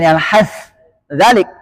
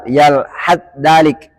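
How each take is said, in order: First: The final th is said separately before the next. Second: The final th merges into the next consonant. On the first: The speaker calls it wrong. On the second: The speaker calls it right. "sama sa dengan zal"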